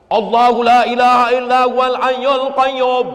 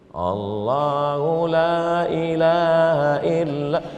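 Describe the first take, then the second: First: It is recited loudly and forcefully. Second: It is recited softly and slowly.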